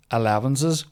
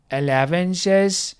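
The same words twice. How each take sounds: First: Said in the usual way. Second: "Elevenses" higher and very slow; mocking drawn-out word. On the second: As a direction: stretch out "Elevenses" in mockery. Mocks word they don't say.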